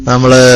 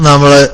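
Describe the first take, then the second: No difference in how they are said.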